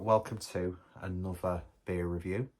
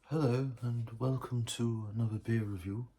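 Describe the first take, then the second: First: It is said in his natural voice. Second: It is said in a put-on scientist voice.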